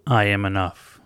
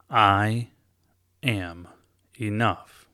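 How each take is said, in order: First: Loud, declared in one breath; booming self-affirmation. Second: "I", "am", "enough." said word by word, pausing between each; slow deliberate affirmation; spaced affirmation. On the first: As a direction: proclaim "I am enough." loudly as one phrase. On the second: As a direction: place each word of "I am enough." separately, loud on "I". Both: Shown as a demonstration. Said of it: "the louder you say it".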